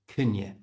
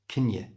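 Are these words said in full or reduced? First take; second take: reduced; reduced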